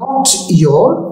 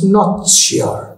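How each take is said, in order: First: The words are separate, with a plain 'y' sound. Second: The words merge, with a 'ch' sound between them.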